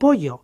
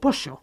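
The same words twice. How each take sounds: First: The middle consonant is a 'y' sound. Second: The middle consonant is an 'sh' sound. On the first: "no se convierte en ye de pollo" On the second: "sino que se convierte en she, de pollo"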